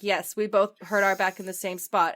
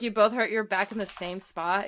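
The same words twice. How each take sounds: First: Loud, firm retold answer; insistent confirmation. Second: Retold doubting question, lightly amused; sceptical question. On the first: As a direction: confirm it emphatically, as if doubted. He insists on his dubious story. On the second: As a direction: query it as if you don't buy it. Friend questions his dubious story.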